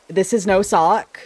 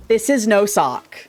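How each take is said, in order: Both takes have the same delivery.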